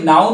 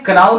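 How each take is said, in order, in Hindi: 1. यह cow के साथ तुकबंदी करता है, k साइलेंट है। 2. यह k से शुरू होता है और cow के साथ तुकबंदी करता है। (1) "इसे नाउ नहीं बोलना है" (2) "क्राउ नहीं बोलना है"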